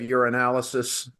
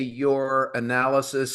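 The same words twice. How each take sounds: First: The two words are run together with elision. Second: The two words are kept clearly separate. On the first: The speaker calls it wrong. "the elision there uh, is a concern" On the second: The speaker calls it right. "would you please say your analysis"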